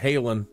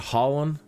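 First: The name is said with an American pronunciation. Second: The name is said with the local pronunciation. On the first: "We say it in America" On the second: "but the town up ahead"

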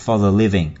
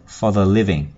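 No difference in how they are said.

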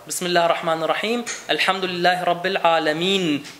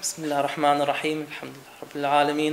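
First: It is recited clearly and loudly. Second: It is recited sleepily and mumbled. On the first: The speaker calls it right. "jeder einzelne Buchstabe laut rezitiert werden soll" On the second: The speaker calls it wrong. "man ist müde ... die Augen kaum geöffnet"

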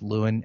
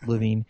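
First: The name is said with a w sound. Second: The name is said with a v sound. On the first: This is how most people say the name. The speaker calls it wrong. "people say his name is Lewin" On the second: This is the actual pronunciation of the name. The speaker calls it right. "Actually, look at the pronunciation. It's Levine"

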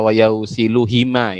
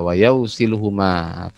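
First: The last word is said with an i vowel. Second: The last word is said with a u vowel. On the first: The speaker calls it wrong. "Jangan dibaca wayau silu hima itu kan. Cari masalah namanya" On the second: The speaker calls it right. "Ini adalah isim domir, berarti dibaca? ... Huma"

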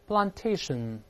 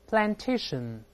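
First: It is said with a British accent. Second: It is said with an American accent. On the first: "先读英式发音" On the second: "再读美式发音"

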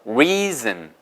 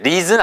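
First: The first sound is said with pushed-out lips. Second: The first sound is said with relaxed lips. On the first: The speaker calls it right. "입술 내밀어서 reason" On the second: The speaker calls it wrong. "절대 reason 아니에요"

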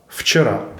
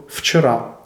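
First: The first consonant is a lip-biting v-like sound. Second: The first consonant is a lip-biting v-like sound.

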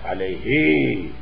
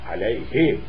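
First: The final vowel is lengthened, held long. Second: The final vowel is short, not lengthened. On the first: The speaker calls it wrong. "not alayhi" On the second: The speaker calls it right. "After sakin, when ya dhamir comes, it is not mad"

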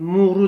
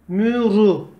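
First: Both vowels are back 'u' sounds. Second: Both vowels are front 'ü' sounds. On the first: The speaker calls it wrong. "Bakın muru demiyorum" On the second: The speaker calls it right. "Mim ötüre mü, ra ötüre ru"

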